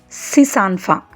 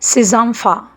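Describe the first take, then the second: First: Six keeps its plain s sound before enfants. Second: Six links into enfants with a z sound. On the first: The speaker calls it wrong. "This sentence should not be pronounced as" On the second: The speaker calls it right. "It should be pronounced as"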